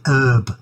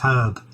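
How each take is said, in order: First: The word begins with a silent h. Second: The word begins with a sounded h. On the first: The speaker calls it wrong. "why do they say herb? That really annoys me" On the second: The speaker calls it right. "It's herb. It's a herb. It's not an herb"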